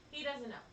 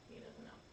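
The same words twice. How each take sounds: First: Said in the usual way. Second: Breathy unvoiced whisper. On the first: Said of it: "normal take after the whisper". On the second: Shown as a demonstration. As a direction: whisper it like a secret. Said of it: "stage whisper, set against the normal take".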